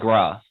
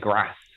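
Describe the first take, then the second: First: The vowel is a long 'ar' sound. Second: The vowel is a short 'a' sound. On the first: This is how Southerners say it. "a Southerner will say grass" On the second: This is how Northerners say it. "a Northerner will say grass"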